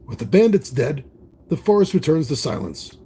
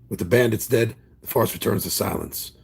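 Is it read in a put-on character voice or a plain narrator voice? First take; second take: narrator voice; character voice. First: It is read in a plain narrator voice. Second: It is read in a put-on character voice.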